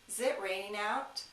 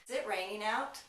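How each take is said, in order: Both takes have the same delivery.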